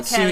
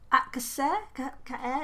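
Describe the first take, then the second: First: The name is said with an English-style pronunciation. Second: The name is said with a Spanish-style pronunciation. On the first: The speaker calls it right. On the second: The speaker calls it wrong.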